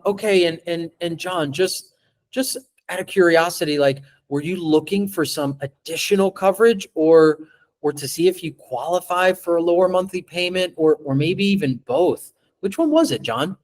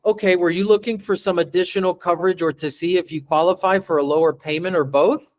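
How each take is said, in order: First: Relaxed, interested questioning; calm curious question to John; curious delivery. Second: Fast, rambling nervous question; hurried script reading; nervous rushed read. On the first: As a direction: ask as if you truly care. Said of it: "Let me read it to you how I read it". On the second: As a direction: rush it like a nervous new rep. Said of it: "You see the difference in that?". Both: Shown as a demonstration.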